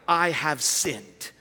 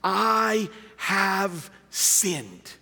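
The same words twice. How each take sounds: First: Lower, slow "I have sinned"; slow emphasis. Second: Drawn-out solemn "I have sinned"; each word of "I have sinned" stretched very slowly; slow emphasis. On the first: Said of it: "seven people who said". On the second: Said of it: "it's this phrase". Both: Shown as a demonstration.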